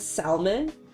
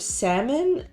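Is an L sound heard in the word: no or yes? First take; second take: yes; no. First: The word is said with an L sound. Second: The word is said without an L sound. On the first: The speaker calls it wrong. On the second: The speaker calls it right.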